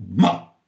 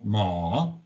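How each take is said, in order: First: The pitch falls through the syllable. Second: The pitch dips down and then rises. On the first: It means to blame or insult. "le ton qui descend" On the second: It means horse. "le ton descendant remontant"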